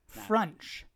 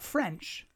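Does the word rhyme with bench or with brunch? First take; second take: brunch; bench. First: The vowel is like the one in brunch. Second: The vowel is like the one in bench. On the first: The speaker calls it right. "Like brunch misspelled with an F" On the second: The speaker calls it wrong. "Not French"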